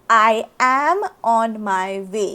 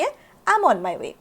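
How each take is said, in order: First: It is said as two separate full words. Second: It is said as one short contracted word. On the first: "च्या ऐवजी" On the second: "थोडंसं fluent sound करण्यासाठी"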